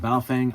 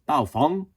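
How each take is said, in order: First: It is said with a plain English pronunciation. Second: It is said with a Mandarin Chinese pronunciation.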